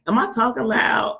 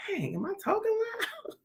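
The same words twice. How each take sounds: First: Said in the usual way. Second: High, squeaky, softened mock voice; mock self-check. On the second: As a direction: squeak it softly, rising at the end. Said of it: "you be like".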